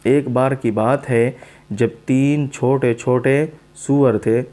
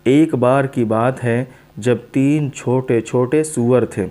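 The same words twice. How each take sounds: The two takes are said the same way.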